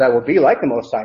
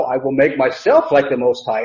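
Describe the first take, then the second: First: Said in the usual way. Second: Firm stress on "myself"; decisive correction, leaning on "myself"; more definitive. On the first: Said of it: "it's not translated that way". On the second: Shown as a demonstration. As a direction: make "myself" the definite point of the claim. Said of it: "It's a lot more definitive than that".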